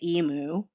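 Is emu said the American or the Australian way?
American. Emu is said the American way. "I say emu"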